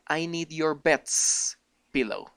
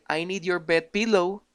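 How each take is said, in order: First: A clear s sound follows bed. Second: No s sound is heard after bed. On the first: It expresses possession. The speaker calls it right. "La S tiene que sonar" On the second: It does not express possession. The speaker calls it wrong. "sin la S"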